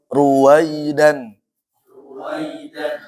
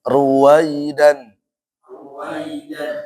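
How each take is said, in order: The two takes are said the same way.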